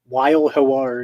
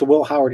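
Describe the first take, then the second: First: The first name sounds like 'Weil'. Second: The first name sounds like 'will'. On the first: The speaker calls it right. "It's pronounced Weil Howard" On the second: The speaker calls it wrong. "It's not pronounced Will Howard"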